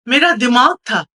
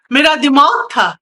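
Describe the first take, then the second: First: Said in the usual way. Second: Emphatic outcry, punching दिमाग; anguished cry. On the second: Acted. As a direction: cry it out, leaning hard on दिमाग. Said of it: "ये कौन चिल्ला रहा है".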